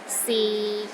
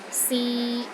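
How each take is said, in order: First: The pitch stays low and level. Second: The pitch stays level in the middle. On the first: It means is. "low and steady, but not as low as the fourth tone" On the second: It means to try. "a mid-tone... in the middle of your range and it is steady"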